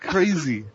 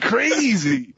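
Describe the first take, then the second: First: The word is said flat and monotone. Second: The word is said lively and energetic. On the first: The speaker calls it wrong. "It sounded a little too monotone" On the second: The speaker calls it right. "That's better"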